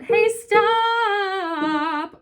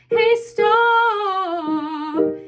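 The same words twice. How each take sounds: First: It is a wide, open, belted sound. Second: It is a narrower, taller sound.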